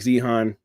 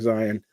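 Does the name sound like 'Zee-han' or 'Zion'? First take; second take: Zee-han; Zion. First: The name is read as it is spelled. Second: The name sounds like the word Zion. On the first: This is how the spelling looks. The speaker calls it wrong. "looks like Zihan" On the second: This is how the name is actually said. The speaker calls it right. "pronounced like Zion"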